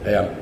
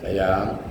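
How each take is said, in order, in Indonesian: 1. Vokalnya pendek dan biasa saja. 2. Vokal ditahan selama dua ketukan. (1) "Tak sedap bunyi dia kan?"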